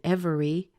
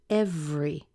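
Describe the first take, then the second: First: The word is said with three syllables. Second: The word is said with two syllables. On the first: "instead of saying every" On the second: "the E gets squeezed out and you end up with just two syllables"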